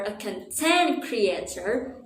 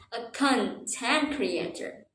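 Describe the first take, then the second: First: CONTENT as con-TENT, meaning happy; stress on second syllable. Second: CONTENT as CON-tent, first syllable strong; stress on first syllable. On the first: Teacher showing the changed meaning, content stressed on TENT. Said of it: "you mean you're happy". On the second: Teacher naming a writer's job, content stressed on CON. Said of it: "depending on where you put the stress". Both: Shown as a demonstration.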